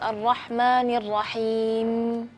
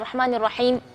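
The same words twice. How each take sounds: First: The final m is held slightly longer. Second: The final m is cut off abruptly. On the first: The speaker calls it right. "seharusnya kita kasih sedikit sifat tawassut ... agak agak sedikit panjang ya" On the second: The speaker calls it wrong. "bukan Ar-Rahmanir Rahim udah berhenti di situ"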